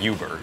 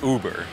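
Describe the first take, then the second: First: It begins with a 'yoo' sound. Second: It begins with a plain 'oo' sound. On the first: The speaker calls it wrong. "chứ không phải Uber" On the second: The speaker calls it right. "nó được đọc là Uber"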